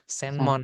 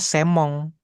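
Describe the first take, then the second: First: The middle nasal is a distinct n sound. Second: The middle nasal merges into an m sound. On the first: This is the written kana reading for the exam. "cara baca kanjinya apa nih di ujian" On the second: This is how it sounds in conversation. "ketika kita ngomong bacanya semong"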